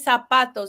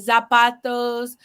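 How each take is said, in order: First: The first sound is a hissing s sound. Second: The first sound is a buzzing z sound. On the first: The speaker calls it right. "but it's actually ... because the Z sounds more like an S in Spanish" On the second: The speaker calls it wrong. "for years I mispronounced the letter Z in Spanish. I would say"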